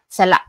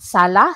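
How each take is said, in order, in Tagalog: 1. May biglaang hinto sa lalamunan ang huling patinig. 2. Bukas ang huling patinig, walang hinto. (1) "it's like a sudden stop, and you know it's like you can feel it here in your throat" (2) "if you just say sala, sala, sala, that means you are at the living room"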